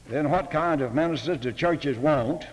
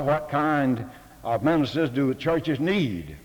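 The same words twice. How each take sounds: First: Said in the usual way. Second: "need" leaned on as the better word; "need" stressed, corrected from "want". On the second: Shown as a demonstration. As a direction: land on "need" with a falling close. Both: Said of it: "Or better".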